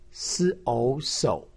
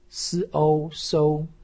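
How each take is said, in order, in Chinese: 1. 音高先降到低处，然后上升。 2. 音高保持在高处，平平的。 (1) "三声" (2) "一声"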